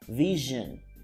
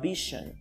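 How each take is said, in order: First: The middle sound is a voiced, vibrating zh. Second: The middle sound is a voiceless sh. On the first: The speaker calls it right. "it's vision" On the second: The speaker calls it wrong. "It's not vision"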